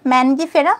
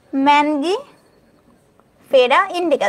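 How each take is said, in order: First: Said in the usual way. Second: ম্যানগিফেরা stretched out slowly, syllable by syllable; slow syllable demo. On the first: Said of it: "আম হচ্ছে ম্যানগিফেরা". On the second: Shown as a demonstration. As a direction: spell out ম্যানগিফেরা very slowly for the class. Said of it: "ঠিক আছে?". (ধীরে ধীরে ভেঙে উচ্চারণ)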